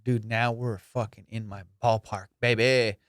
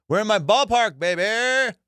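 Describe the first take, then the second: First: Said in the usual way. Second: High, loud triumphant cry on ballpark; excited shout. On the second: Real, not acted. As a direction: shout it like a winner.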